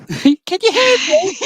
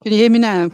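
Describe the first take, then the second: First: High, slow, through a laugh. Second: Much louder, testing the line; loud mic check. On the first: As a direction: giggle through the question. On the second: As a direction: raise your voice to be heard. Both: Real, not acted.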